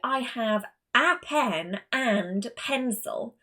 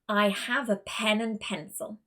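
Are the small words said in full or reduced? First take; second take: full; reduced. First: Every small word is said in full. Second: The small words a and and are reduced. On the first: The speaker calls it wrong. "I do not say" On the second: The speaker calls it right. "the two weak forms that I introduced were on the article a and on the conjunction and. Listen again"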